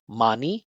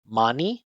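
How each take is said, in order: No difference in how they are said.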